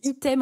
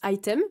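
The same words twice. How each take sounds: First: It is pronounced with French vowels, like 'ee-tem'. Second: It is pronounced with English vowels, like 'eye-tem'. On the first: The word comes from Latin. "on dit item en français d'abord" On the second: The word was learned as an English word. "c'est un anglicisme. Je prononce item"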